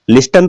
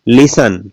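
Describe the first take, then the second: First: A t sound is pronounced. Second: The t is silent. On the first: The speaker calls it wrong. "लिस्टन तो नहीं बोलते" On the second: The speaker calls it right. "टीईएन बोलते क्या है"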